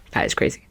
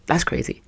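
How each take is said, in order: First: Unvoiced, emphatic whisper. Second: Unvoiced whispered aside. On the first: Whispering again to listeners, stressing the snub. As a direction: hiss it softly, stressing that. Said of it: "repeated whisper". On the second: Whispering to listeners about the bold snub. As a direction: breathe it like a secret. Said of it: "whispered aside". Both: Real, not acted.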